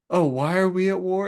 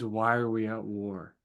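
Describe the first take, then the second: First: Mock-exasperated echo, pitched high; high, put-out imitation of an irritated questioner; annoyed Horus. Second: Said in the usual way. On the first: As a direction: throw the question back higher, in mock annoyance. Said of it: "Horus is just so annoyed". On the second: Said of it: "he means".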